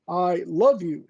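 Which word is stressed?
love. The stress is on the word love. It is love, not mere liking. "doesn't mean that I like you, it means I love you"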